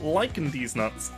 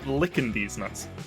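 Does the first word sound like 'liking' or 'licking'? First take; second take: liking; licking. First: The first word sounds like 'liking'. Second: The first word sounds like 'licking'. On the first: "I've actually heard two pronunciations of this" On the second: "I've actually heard two pronunciations of this"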